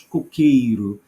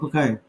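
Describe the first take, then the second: First: Every vowel is pronounced fully and clearly. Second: Some vowels are reduced or swallowed. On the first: "Nós brasileiros dizemos coqueiro" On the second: "os portugueses dizem cocaia. Assim, cocaia. ... eles comem a vogal"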